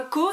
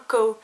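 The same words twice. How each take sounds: First: Said in the usual way. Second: Co said English-style, like "cow"; English accent. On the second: Shown as a demonstration. Vlogger explains her nickname from friends' game, English accent on Co. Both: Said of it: "qu'on parlait avec l'accent anglais".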